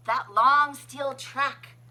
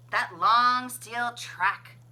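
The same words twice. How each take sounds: The two takes are said the same way.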